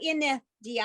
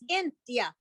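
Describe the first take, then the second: First: An extra vowel is sounded after 'in'. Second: It goes straight from 'in' to 'dia'. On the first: The speaker calls it wrong. "You don't go in the dia" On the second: The speaker calls it right. "it's in dia"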